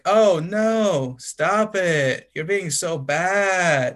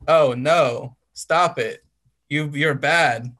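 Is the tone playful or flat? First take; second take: playful; flat. First: It is said in a teasing, playful tone. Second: It is read out in a flat tone.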